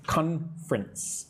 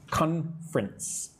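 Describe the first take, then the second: First: The word is said with two syllables. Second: The same.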